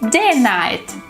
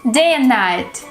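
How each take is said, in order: First: The word 'and' is reduced to 'n'. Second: The same.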